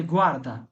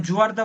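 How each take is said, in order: First: "গুয়ার্দা" with hard g in place of j; hard g pronunciation. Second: "জুয়ার্দা" starting with j in place of hard g; wrong j pronunciation. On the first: Teacher restates the correct word, "গুয়ার্দা" with hard g. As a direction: say "গুয়ার্দা" as GWAR-da, falling. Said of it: "তাহলে কি আপনাকে আমি জুয়ার্দা বলবেন". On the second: Teacher asks if they would say it so, "জুয়ার্দা" with j sound. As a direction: say "জুয়ার্দা" as JWAR-da. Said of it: "জুয়ার্দা বলবেন". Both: Shown as a demonstration.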